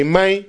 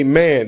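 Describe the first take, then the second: First: Man in a high Southern drawl. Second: Said in the usual way. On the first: Shown as a demonstration. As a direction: say man like a Mississippi guy. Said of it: "they say". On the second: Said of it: "they don't say".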